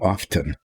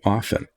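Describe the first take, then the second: First: The T is pronounced. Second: The T is silent. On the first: This is the newer way people say it. "which now people are saying often" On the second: This is the older way it was said. "the way we grew up saying often"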